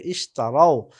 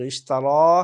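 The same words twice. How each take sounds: First: "ইশতারাও" ending in a falling ao glide; plural ao ending. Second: "ইশতারা" ending in a held open aa; former form, long a. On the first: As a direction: say "ইশতারাও" as is-ta-rao, dropping at the end. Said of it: "সেটা হয়ে যাবে ইশতারাও". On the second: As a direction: say "ইশতারা" with a rising, long final aa. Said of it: "যেটা ছিল ইশতারা". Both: Shown as a demonstration.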